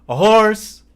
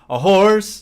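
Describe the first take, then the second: The two takes are said the same way.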